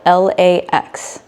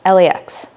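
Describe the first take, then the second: First: The letters are said slowly and separately. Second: The letters are said quickly and run together.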